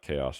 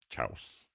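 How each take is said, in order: First: The word has its usual standard pronunciation. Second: The word is pronounced as sounded out from spelling. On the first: The speaker calls it right. "how I thought chaos was pronounced" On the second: The speaker calls it wrong. "I only pronounced it like that because I had learned how to read"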